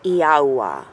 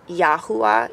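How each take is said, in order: First: "Yahuwah" drawn out, falling low at the end; slow, careful "Yahuwah"; demonstrated pronunciation. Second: Said in the usual way. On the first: Shown as a demonstration. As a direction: sound out "Yahuwah" as one long glide, ee-ah-oo-ah. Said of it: "That's how you say God's name". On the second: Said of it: "it's spelled Yahuwah".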